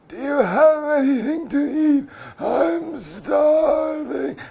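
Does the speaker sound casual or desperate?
desperate. It is said in a weak, desperate tone. The speaker is truly in danger from hunger.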